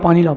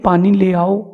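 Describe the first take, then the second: First: The phrase is rattled off very fast. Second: The phrase is said slowly and clearly. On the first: The words are unclear and must be repeated. The speaker calls it wrong. "बहुत speed से कहते हैं" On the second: The message is understood the first time. The speaker calls it right. "एक बार रुक करके बोल दे"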